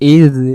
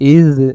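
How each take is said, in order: First: The consonant is a soft dh sound. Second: The consonant is a soft dh sound.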